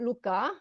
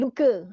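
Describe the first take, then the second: First: The a sound has a northern Malay quality. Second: The a sound has a southern Malay quality. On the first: "kalau orang utara dia akan sebut luka" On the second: "ini kita yang dekat selatan lah"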